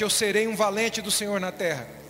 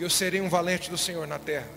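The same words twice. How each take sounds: First: It is said louder and stronger. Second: It is said at normal volume.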